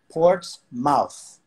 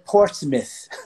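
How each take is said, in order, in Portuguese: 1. A última sílaba é dita por completo, como mouth. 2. A última sílaba é cuspida com força. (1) "para nós, Portsmouth. M O U T H, Mouth" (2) "o pessoal de New Hampshire... pronuncia Portsmouth. Quase cuspindo em você"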